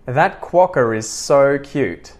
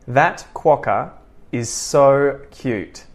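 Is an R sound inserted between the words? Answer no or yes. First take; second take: yes; no. First: The words are joined with a linking R. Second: The words are separated with no linking R. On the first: "I'm going to connect it all together using the intrusive R" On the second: "I'm going to say the following sentences disconnected"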